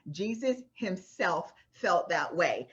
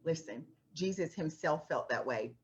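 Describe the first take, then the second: First: Slow, with felt leaned on and falling; slow down and punch felt; stress on felt. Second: Said in the usual way. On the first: Shown as a demonstration. Preacher repeats it to the congregation, leaning on felt.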